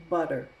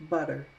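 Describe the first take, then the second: No difference in how they are said.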